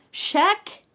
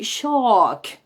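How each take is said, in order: First: "shack" high, rising, with a frontal A; choni A. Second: "shark" long, with an open back A and no R; pija A. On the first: Teacher repeating an example, "shack" high with front A. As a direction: pitch up "shack" on a short front vowel. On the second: Teacher contrasting it with shack, "shark" on a long back A. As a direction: pull the vowel of "shark" far back. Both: Shown as a demonstration. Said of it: "por ejemplo".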